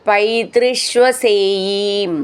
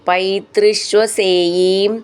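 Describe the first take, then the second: Both takes have the same delivery.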